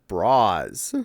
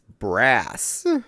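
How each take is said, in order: First: It is said like the plural 'bras'. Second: It is said like the metal 'brass'. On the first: The speaker calls it wrong. "I said bras. I was apparently wrong" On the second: The speaker calls it right. "It's brass"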